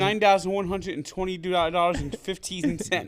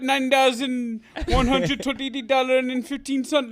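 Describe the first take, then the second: First: It is said in the speaker's ordinary accent. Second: It is said in a put-on Jamaican accent.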